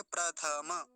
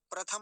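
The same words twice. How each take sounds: First: प्रथमा as "pra-tha-ma"; प्रथमा evenly, open vowel at the end; Sanskrit full vowels. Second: प्रथम ending on a closed m; Hindi-style प्रथम. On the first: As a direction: give थ and म their vowels in प्रथमा. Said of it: "ऐसा बोलेंगे". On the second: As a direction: drop the final vowel of प्रथम. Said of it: "नहीं बोलेंगे". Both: Shown as a demonstration.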